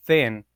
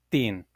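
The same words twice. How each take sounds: First: Said in the usual way. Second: "tin" with a hard T, as Patois says thin; thin turned into "tin"; Patois pronunciation. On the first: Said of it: "would be pronounced like tin". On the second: Shown as a demonstration. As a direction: say "tin", a stopped T in place of TH. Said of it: "doesn't really have the T H sound".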